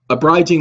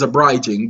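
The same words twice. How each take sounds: First: It has a common, everyday pronunciation. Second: It has a careful, formal legal pronunciation. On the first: The speaker calls it wrong. "we're going to say it like the rest of you people say it" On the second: The speaker calls it right. "Got to say it correctly"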